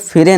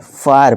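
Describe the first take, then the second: First: The first vowel is a short 'i' sound. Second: The first vowel is an 'eye' sound. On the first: The speaker calls it wrong. "इसे फिरे नहीं" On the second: The speaker calls it right. "इसे फायर फायर पढ़ेंगे"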